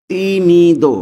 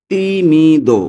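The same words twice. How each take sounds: The two takes are said the same way.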